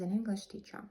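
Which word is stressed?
English. The stress falls on the word English. The person teaches the English language. "so a teacher of English"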